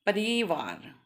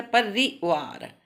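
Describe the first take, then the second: First: परिवार with री stretched long; wrong pronunciation demo. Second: परिवार very slowly, short रि then long वार; correct pronunciation demo. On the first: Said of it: "ये गलत है". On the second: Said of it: "परिवार गलत है". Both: Shown as a demonstration.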